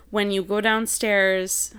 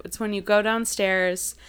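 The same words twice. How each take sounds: First: A touch of Wisconsin in "downstairs"; slow Wisconsin-flavored "go downstairs"; light Upper Midwest accent on "downstairs". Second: Said in the usual way. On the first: Real, not acted. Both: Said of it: "that was very Wisconsin-y how I just said that".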